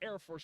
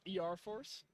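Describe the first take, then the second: First: The first part is said as one word. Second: The first part is spelled out letter by letter. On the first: The speaker calls it right. "it's Air Force" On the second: The speaker calls it wrong. "and not E R Force"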